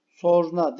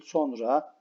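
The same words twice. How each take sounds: First: Sonra said as a careless mispronunciation; teacher shows the wrong Sonra; wrong form. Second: Sonra said cleanly with a rise; teacher gives the right sonra; correct form. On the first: Teacher to pupils, demonstrating wrong Sonra. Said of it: "Sonra değil". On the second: Teacher to pupils, correct sonra. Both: Shown as a demonstration.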